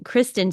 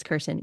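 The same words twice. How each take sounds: First: Kristen with the r right after the K, KRIS-ten; correct name. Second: Kirsten met de r vóór de s, als KIR-sten; wrong name. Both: Shown as a demonstration. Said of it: "I probably mispronounced her name earlier".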